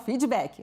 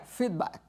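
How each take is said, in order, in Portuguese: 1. É dito com pronúncia do português brasileiro. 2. É dito com pronúncia inglesa. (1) "Aqui no Brasil a gente fala feedback" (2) "seria feedback, a pronúncia correta"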